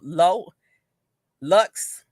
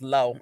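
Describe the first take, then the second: First: The name ends with an audible 'ks' sound. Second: The name ends in a vowel, no 'ks'. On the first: The speaker calls it wrong. "I want to say Lo, Lo Lux" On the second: The speaker calls it right. "I don't think you pronounced the X"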